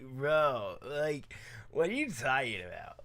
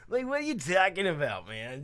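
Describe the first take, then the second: First: It is said in a surfer-style voice. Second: It is said in a general California voice.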